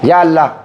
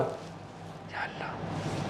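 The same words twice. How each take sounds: First: It is called out loud enough for the room. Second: It is said so softly it is barely audible. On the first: The one called is as near as the listeners. "अगर मैं अल्लाह को ऐसे पुकारूंगा" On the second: The one called is nearer than anyone else. "इसको भी नहीं आई, मुझे आई"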